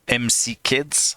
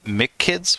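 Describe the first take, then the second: First: M and C are said as separate letters. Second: MC is said as one syllable, 'Mick'.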